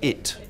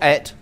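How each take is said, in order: First: The vowel sounds like 'i' in 'sit'. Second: The vowel sounds like 'e' in 'bed'. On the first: The speaker calls it right. "but it" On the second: The speaker calls it wrong. "Not et"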